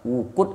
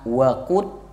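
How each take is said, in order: First: The first vowel is an 'u' sound. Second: The first vowel is an 'a' sound. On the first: It means blazing or burning. "kalau dibaca wuqudun nar" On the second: It means the fuel that burns. "kalau dibaca fathah"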